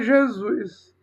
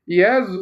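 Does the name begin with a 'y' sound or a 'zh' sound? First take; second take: zh sound; y sound. First: The name begins with a 'zh' sound. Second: The name begins with a 'y' sound. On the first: This is the later form using the letter J. "para Jesus" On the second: This is the old Latin form of the name. "chamar Jesus no latim"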